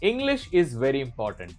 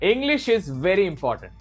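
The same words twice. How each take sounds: First: The voice is in its ordinary range. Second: The voice range is raised a little. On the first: "this is my normal range." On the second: "थोड़ा बढ़ाया"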